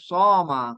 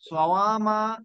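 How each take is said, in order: First: There is no w sound; the word is shorter. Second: A w sound comes after the first syllable. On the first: This is the simplified form actually used. "সমা এটা সহজ" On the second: This is the underlying original form. "Original ফর্মটা"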